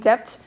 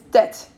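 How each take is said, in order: First: The b sound is pronounced. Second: The b sound is silent. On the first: The speaker calls it wrong. "don't go to college reading debt" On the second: The speaker calls it right. "B is silent"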